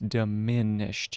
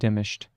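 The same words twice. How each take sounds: First: The stress falls on the second syllable. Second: The stress falls away from the second syllable. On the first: The speaker calls it right. "You have to push the emphasis on that second syllable" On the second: The speaker calls it wrong. "It's not diminished"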